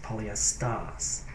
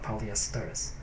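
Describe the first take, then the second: First: It is said in a Boston accent. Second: It is said in a standard accent. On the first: "It's part of the Boston accent" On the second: "not polyesters"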